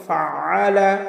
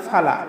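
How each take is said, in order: First: ফাআলা with the middle আ squeezed from the throat; correct ayn. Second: ফালা run together with no throat sound; ayn dropped. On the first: Teacher gives the right form, ফাআলা with throaty ayn. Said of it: "কি বলবো?". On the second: Teacher shows the mistake, ফালা without the ayn. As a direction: say ফালা quickly as plain "fala". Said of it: "বলবো না". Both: Shown as a demonstration.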